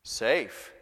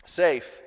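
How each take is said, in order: First: Mister Beaver. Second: Put-on "Safe," said louder in a lightly British accent; a hint of British Beaver on "Safe,"; British Mister Beaver. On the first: Acted. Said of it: "said Mister Beaver". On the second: Father reading Narnia to his children, with a light British accent. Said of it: "He does have a British accent".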